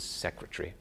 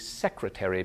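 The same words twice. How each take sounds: First: The word is said with three syllables. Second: The word is said with four syllables. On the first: "becomes trisyllabic" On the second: "quadrisyllabic words tend to become"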